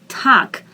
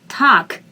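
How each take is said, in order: First: The vowel is said long and drawn out. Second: The vowel is said long and drawn out.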